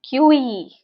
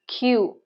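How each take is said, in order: First: The word is said with two syllables. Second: The word is said with one syllable. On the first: The speaker calls it wrong. "Some people say it as Q E, but this is not Q E" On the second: The speaker calls it right. "this is Q"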